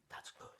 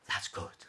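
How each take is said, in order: First: Soft unvoiced repeat; whispered echo. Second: Said in the usual way. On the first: A narrator's reading. Tired cat echoing himself, whispered. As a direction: breathe it out as an afterthought.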